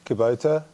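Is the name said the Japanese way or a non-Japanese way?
non-Japanese. The name is said with a non-Japanese pronunciation. This is how foreigners say the name. "So foreigners, it's Kubota"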